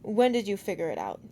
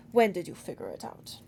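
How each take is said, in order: First: Clipped, precise demand. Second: Put-on demanding, accent faded. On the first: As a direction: demand it sharply, no accent. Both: A narrator's reading. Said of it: "he demanded".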